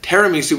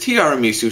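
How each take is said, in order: First: The word begins with a short 'tira' sound. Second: The word begins with a 'tiara' sound. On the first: The speaker calls it wrong. "a lot of people pronounce it tiramisu" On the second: The speaker calls it right. "but it is tiramisu"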